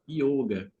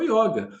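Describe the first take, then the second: First: The o is a closed vowel. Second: The o is an open vowel. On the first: This is how it is said around the world. "Você vai no mundo inteiro, as pessoas falam yoga" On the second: This is the Rio de Janeiro way of saying it. "o carioca tem uma dificuldade em pronunciar fonemas fechados, então o O vira O... ficou yoga"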